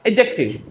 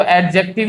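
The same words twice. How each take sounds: First: एडजेक्टिव said as a-jective, no D before the J; silent D. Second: एडजेक्टिव with the D clearly pronounced; D sounded. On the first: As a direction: drop the D in एडजेक्टिव. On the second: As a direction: say एडजेक्टिव as ad-jective, D heard before the J. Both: Shown as a demonstration. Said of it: "डी silent होता है".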